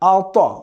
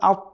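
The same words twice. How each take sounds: First: The final consonant is released with an echoing bounce. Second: The final consonant stops flat without a bounce. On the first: The speaker calls it right. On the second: The speaker calls it wrong.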